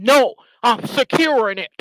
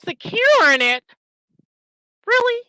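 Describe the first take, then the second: First: Mock snippy retort, louder; retold snap. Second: High, loud disbelieving echo; outraged disbelief, pitch way up; incredulous. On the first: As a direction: bite it off like an angry man caught out. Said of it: "snapped at me and said". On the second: Real, not acted. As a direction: throw the word back in disbelief. Incredulous at rival's claim.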